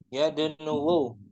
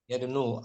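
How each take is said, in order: First: The word ends with an extra final u vowel. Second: The word ends without a final extra vowel. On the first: The speaker calls it wrong. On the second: The speaker calls it right.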